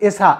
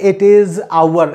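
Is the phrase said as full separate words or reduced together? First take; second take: reduced; full. First: The words are run together as one short word. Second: Each word is said fully and separately. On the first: The speaker calls it right. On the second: The speaker calls it wrong. "Aise nahi bolenge"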